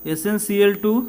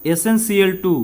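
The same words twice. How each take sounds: The two takes are said the same way.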